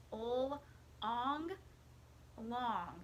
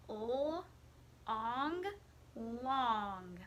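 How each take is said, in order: Both takes have the same delivery.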